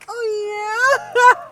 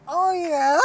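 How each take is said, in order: First: Very high, loud mock moan; exact squeaky impression. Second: Much higher, thin mock moan; toned-down take on his squeaky voice; squeaky imitation. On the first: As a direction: nail his squeaky porn-voice. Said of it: "Exactly like that". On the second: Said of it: "I'm not even saying how he said it".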